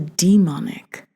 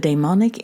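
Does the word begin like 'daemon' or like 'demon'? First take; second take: demon; daemon. First: The first part sounds like English 'demon'. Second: The first part sounds like Greek 'daemon'. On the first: Something evil. "Christianity turned the demonic into the demonic" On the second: A spirit that is both good and evil. "derives from the Greek daemon, ... hence my pronunciation"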